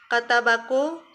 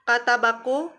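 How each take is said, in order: The two takes are said the same way.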